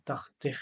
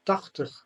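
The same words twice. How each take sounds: First: Tachtig with a full ee sound on ig; wrong pronunciation. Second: Tachtig with final ig as a schwa, tachtuh; Dutch demo word. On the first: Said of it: "we do not say". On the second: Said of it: "for example". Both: Shown as a demonstration.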